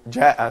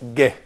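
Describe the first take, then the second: First: The word is said in its full form. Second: The word is said in a clipped form. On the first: This is the formal standard usage. "the standard form for the word" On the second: This is everyday spoken usage. "so you say ge"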